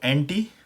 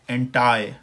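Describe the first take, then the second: First: It is said with a British accent. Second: It is said with an American accent.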